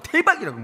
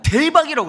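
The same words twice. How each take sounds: First: Excited again. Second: Higher and louder, a delighted shout; gushing over a present; excited outburst. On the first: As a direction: repeat the delight more lightly. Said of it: "그러면". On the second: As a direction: blurt it out thrilled. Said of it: "그럼 저는 어떠냐?". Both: Retold or imitated.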